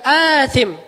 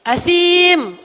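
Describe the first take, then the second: First: "asim" said AA-thim, long first a, short i. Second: "Asim" said as a-THEEM, the i drawn long and stressed. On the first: Teacher contrasts the wrong long-a form of "asim". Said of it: "bukan asim". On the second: Teacher gives the Quranic long-vowel form of "Asim". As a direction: draw out the ee in "Asim". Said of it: "Allah ngomongnya gitu, bukan asim". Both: Shown as a demonstration.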